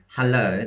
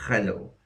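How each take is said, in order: First: Said in the usual way. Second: "hello" with a raspy, throaty fricative for the H; gravelly Russian H. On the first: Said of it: "native Russians try to say hello". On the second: Shown as a demonstration. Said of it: "a H with a bit of gravel in it".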